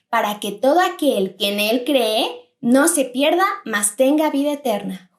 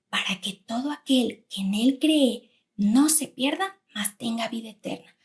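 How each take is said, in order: First: It is said in a loud voice. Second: It is said in a quiet voice.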